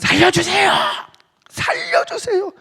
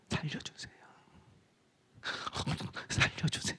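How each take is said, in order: First: It is shouted loudly and desperately. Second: It is said quietly and calmly.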